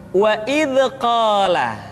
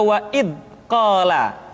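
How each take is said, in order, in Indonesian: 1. Bunyi dz mengalir lembut dan halus. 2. Bunyi dz terputus singkat dan mendadak. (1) "yang tepat adalah suara dialirkan dengan lembut"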